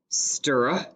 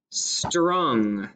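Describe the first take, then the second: First: "str-ung" split, blend then rime; segmented word. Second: Said in the usual way. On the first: Shown as a demonstration. Teacher segmenting "str-ung" for spellers. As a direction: pull "str-ung" apart in two parts. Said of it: "then we're going to pound it". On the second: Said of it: "I'm going to say the word".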